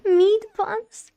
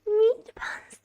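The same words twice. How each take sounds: First: Excited shout. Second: Excited whisper. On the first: Girl shouts at the food. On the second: Repeated, whispered. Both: Acted.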